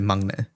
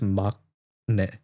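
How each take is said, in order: First: The middle consonant blends into an ng sound. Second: The middle consonant is a clear k sound. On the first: "when you say it together, it's sort of like combines" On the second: "the way it's phonetically written is Makne"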